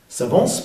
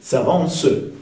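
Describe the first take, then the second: First: The word ends on the consonant, no final vowel. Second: The word ends with a prolonged final E vowel.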